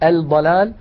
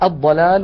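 First: The l is clearly pronounced before d. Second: The l blends into a doubled d sound. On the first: The speaker calls it wrong. "ولا نقول الضلال" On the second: The speaker calls it right. "مثلا الضلال"

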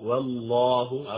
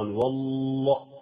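First: The L sound is passed over quickly. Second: The L sound is held for a long time. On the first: The speaker calls it right. "هكذا مرورا مرورا" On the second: The speaker calls it wrong. "حينما تقف على اللام لا تقف كثيرا، والله لا"

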